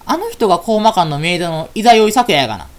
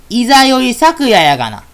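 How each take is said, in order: First: Said in the usual way. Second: Louder, slower repeat. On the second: Acted. Repeating the name slowly and louder to a friend who didn't catch it. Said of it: "え？".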